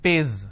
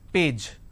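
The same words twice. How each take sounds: First: The word ends with a 'z' sound. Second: The word ends with a 'j' sound. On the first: The speaker calls it wrong. "replace the j with a z, z" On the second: The speaker calls it right. "the pronunciation is per a j"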